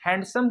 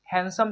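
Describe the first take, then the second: First: हैंडसम with the d sounded, hand-some; teacher showing the mistake, हैंडसम with a clear d; wrong way. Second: हैंडसम said han-sum, no d; silent d. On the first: Pupils hear the wrong way, d pronounced. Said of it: "हैंडसम बोलना गलत होगा". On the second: Teacher models correct हैंडसम with silent d. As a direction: drop the d in हैंडसम. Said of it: "इसलिए हम लोग हैंडसम पढ़ेंगे". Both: Shown as a demonstration.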